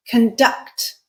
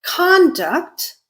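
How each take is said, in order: First: Conduct said slowly with stress on the second syllable, con-DUCT; verb stress conDUCT. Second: Conduct said slowly with stress on the first syllable, CON-duct; noun stress CONduct. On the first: Teacher contrasting two stresses, second-syllable stress. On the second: Teacher contrasting two stresses, first-syllable stress. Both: Shown as a demonstration. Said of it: "I can pronounce it in two different ways".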